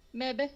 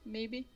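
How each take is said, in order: First: "Maybe" said as "MEB-buh"; "Maybe" with a short e and an uh ending; playful mispronunciation. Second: Said in the usual way. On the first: Shown as a demonstration. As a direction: clip the vowels of "Maybe" into "mebbuh". Repeats the word in altered pronunciation.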